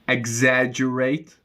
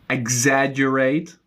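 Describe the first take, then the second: No difference in how they are said.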